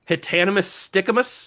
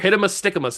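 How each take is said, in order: First: The first word has four syllables. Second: The first word has three syllables. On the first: The speaker calls it wrong. "not Hitanimus" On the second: The speaker calls it right. "is probably how you pronounce it"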